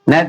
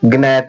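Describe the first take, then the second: First: The word begins with n, the g silent. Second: The word begins with a sounded g. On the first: The speaker calls it right. "लेकिन नहीं, ये लिखा है नेट" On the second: The speaker calls it wrong. "जिसे नहीं पता रहता वो ग्नैट पढ़ने की कोशिश करता है"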